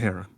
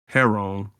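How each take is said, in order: First: It is pronounced like the bird's name, heron. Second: It is pronounced so it sounds like heroin. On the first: The title refers to a bird. The speaker calls it right. "but a damn bird" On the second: The title would refer to a drug. The speaker calls it wrong. "like a bad pronunciation of heroin"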